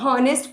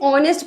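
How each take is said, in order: First: The word begins with an h sound. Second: The word begins with a vowel sound. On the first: The speaker calls it wrong. "क्या हम इसको हॉनेस्ट पढ़ते हैं? नहीं" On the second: The speaker calls it right. "एच हमारा silent होता है"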